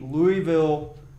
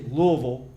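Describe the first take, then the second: First: Louisville is said the way outsiders say it. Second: Louisville is said the way locals say it. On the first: Listeners from elsewhere will recognize the name. The speaker calls it wrong. "I say Louisville for the audience outside of Louisville" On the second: This is how people from the city say it. The speaker calls it right. "I should say Louisville Thoroughbred Society. I need to pronounce it right"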